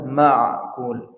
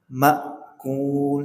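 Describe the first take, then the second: First: A throaty ain sound is made in the middle. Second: The voice stops briefly with a glottal catch. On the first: The speaker calls it wrong. "mengira ini ain, sehingga dibaca ma'kul" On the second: The speaker calls it right. "Makul, suaranya terhenti"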